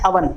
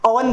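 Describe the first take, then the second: First: अवन said with a short a, uh-vun; the right way, अवन with a short a; correct pronunciation. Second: ओवन said with a long o like oh-ven; the common mistake ओवन with a long o; wrong pronunciation. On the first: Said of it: "इसका सही pronounce होता है". (सही उच्चारण: अवन, छोटे अ के साथ) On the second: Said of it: "वो हम गलत प्रोनाउंस करते हैं". (गलत उच्चारण: ओवन, लंबे ओ के साथ) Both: Shown as a demonstration.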